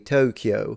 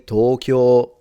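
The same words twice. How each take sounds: First: It is said with English stress and vowels. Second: It is said with Japanese pitch and vowels. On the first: This is the adapted form people use. "You say Tokyo" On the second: This is the native form people avoid. "Do you actually say Tokyo? No, you don't"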